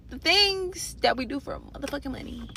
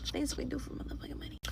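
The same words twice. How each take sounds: First: Said in the usual way. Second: Fast breathy whisper of the same line; whispered repeat. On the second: Real, not acted. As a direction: echo it in a quick whisper.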